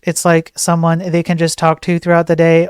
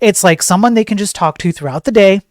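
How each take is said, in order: First: It is read flatly, without emphasis. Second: It is read with strong emphasis on key words.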